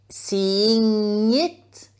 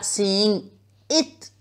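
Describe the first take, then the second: First: The two words are linked smoothly together. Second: The two words are cut apart with a break. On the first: The speaker calls it right. "faites vos liaisons" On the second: The speaker calls it wrong. "pas seeing it ... si vous coupez entre les mots comme ça"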